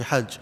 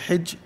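First: The vowel after the first consonant is 'a'. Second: The vowel after the first consonant is 'i'. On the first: "you can say it with a kasra or a fatha" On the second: "you can say it with a kasra or a fatha"

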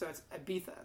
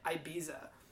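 First: The name has a Castilian Spanish pronunciation. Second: The name has an American pronunciation. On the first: "So it's Ibiza. That's how they say it" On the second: "how Americans pronounce the Spanish city of Ibiza as Ibiza"

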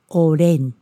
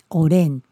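Both takes have the same delivery.

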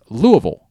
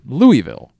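First: It is said as a reduced 'Luh-vul'. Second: It is said as 'Louie-ville' with full vowels. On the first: The speaker calls it right. "it's Louisville" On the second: The speaker calls it wrong. "for most of my life I said Louisville"

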